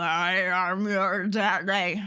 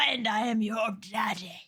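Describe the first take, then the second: First: Low, slow, deepened "daddy"; deep voice. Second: Deep laughing voice. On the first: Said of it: "I need, like, a voice warper". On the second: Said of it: "a voice warper". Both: Pretend.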